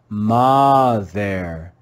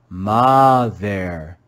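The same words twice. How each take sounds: First: The first vowel is a short O sound. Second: The same.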